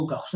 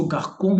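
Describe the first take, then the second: First: Garçon as gakh-SON, c as s; soft c. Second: Garçon misread as gakh-KON, c as k; hard c. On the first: Teacher naming the French word for boy, soft c. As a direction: say garçon with an s in the middle. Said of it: "इसको garçon नहीं बोलूंगा". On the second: Teacher showing it without a cedilla, hard c. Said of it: "मैं इसको garçon बोलूंगा". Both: Shown as a demonstration.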